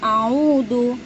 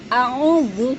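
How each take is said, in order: First: The middle consonant is a stop like d. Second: The middle consonant is a buzzing z-like sound. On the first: The speaker calls it wrong. "jangan a'udu" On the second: The speaker calls it right. "serasa kayak bergetar"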